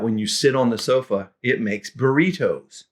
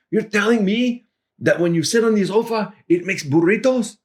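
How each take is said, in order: First: Said in the usual way. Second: Much higher, incredulous laughing question; can't believe it, grinning; amused disbelief. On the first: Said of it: "it sounded like I said to Javier". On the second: Retold or imitated. Javier repeating the sofa burrito line in disbelief. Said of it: "he started laughing and saying".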